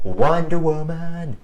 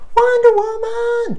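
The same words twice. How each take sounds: First: It is said at a normal pitch. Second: It is said in a strained high pitch.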